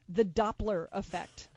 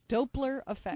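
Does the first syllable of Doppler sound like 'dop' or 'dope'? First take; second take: dop; dope. First: The first syllable sounds like 'dop'. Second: The first syllable sounds like 'dope'. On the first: The speaker calls it wrong. "I said it wrong" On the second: The speaker calls it right. "There's only one P in it"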